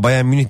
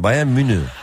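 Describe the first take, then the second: First: The name is said as Bayern Münih. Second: The name is said as Bayan Münü. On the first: The speaker calls it wrong. "Bayern Münih değil" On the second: The speaker calls it right. "Yani menü ile mini arası"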